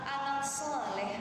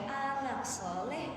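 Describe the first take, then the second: Both takes have the same delivery.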